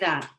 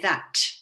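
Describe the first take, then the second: First: The final T sound is barely heard. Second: The final T sound is clearly heard. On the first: "you can't really hear the end T" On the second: "But in Manchester, they'd say"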